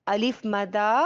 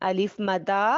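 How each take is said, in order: Both takes have the same delivery.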